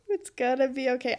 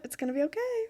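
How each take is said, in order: First: Quicker repeat to convince herself; second, brisker try at comfort; self-reassuring. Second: Tearful reassurance. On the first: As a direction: talk yourself into calm. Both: Real, not acted. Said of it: "As I'm, like, wiping away tears".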